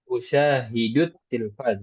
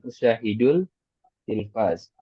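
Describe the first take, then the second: First: The L merges into the following T sound. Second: The L is pronounced before the T sound. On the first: The speaker calls it right. "di situ usyahidut tilfaz" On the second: The speaker calls it wrong. "bukan usyahidul tilfaz"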